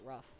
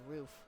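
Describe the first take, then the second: First: The vowel is short, like in 'rough'. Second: The vowel is long, like in 'roof'. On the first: The speaker has always said it this way. "I always pronounced it rough" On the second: Other people say it this way. "I didn't know people pronounced it roof"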